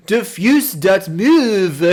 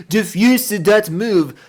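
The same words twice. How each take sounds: First: Slow, drawn-out fake French; mock French accent. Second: Slow, drawn-out fake French reading; mock French accent. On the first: Streamer reading his misspelt file name in a light mock French voice. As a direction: say it like it's fancy French. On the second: Streamer repeating the misspelt name in a light mock French voice. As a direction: pronounce it like a French word.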